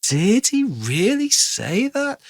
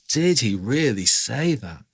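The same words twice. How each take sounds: First: "Did he really say that" very slow, swooping high on stressed words; drawn-out, high, incredulous "Did he REALLY say THAT"; exaggerated emphasis. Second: Slow "Did he really say that", stretching DID and REALLY; measured emphasis. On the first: Teacher shows storytelling swing, "Did he really say that" hugely emphasized. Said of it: "It's adding emphasis to certain syllables". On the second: Teacher models a storytelling phrase, slow "Did he really say that" with mild emphasis. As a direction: lean gently on "Did" and "really". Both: Shown as a demonstration.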